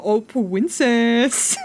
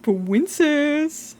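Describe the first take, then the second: First: Slow, drawn-out cooing princess; mocking chat's cooing; mock sweet-talk. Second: Higher, drawn-out cooing princess; mocking chat's cooing again; mock sweet-talk. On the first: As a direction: imitate a smarmy sweet-talker. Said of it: "come into my fucking home and go". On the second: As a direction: coo it like a flirt. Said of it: "slap of the feet together".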